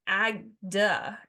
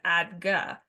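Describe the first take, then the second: First: The G sound comes before the D sound. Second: The D sound comes before the G sound. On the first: The speaker calls it wrong. "I was saying it was agda" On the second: The speaker calls it right. "instead of adga"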